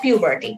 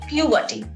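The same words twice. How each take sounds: First: It is said with an American accent. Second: It is said with a British accent. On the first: "American pronunciation হলো" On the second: "British pronunciation হলো"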